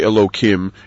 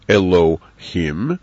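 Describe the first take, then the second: First: The name is said in an altered, disguised form. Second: The name is said in its full, unaltered form. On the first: The name is softened out of reverence in conversation. "if you hear me say Elohim" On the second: This is the actual name as used in prayer. "it means Elohim"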